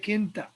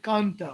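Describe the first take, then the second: First: The first vowel is i. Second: The first vowel is a. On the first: "I prefer to say kinta" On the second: "or I prefer to say kanta"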